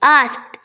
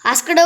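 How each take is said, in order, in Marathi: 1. शब्द लहान, कापलेल्या t आवाजाने संपतो. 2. शब्द पूर्ण d आणि स्वराने संपतो. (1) "डीचा उच्चार सायलेंट करतो आपण, म्हणजे थोडासा टीचा उच्चार करायचा" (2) "आस्कडं वाकडं तिकडं नाही"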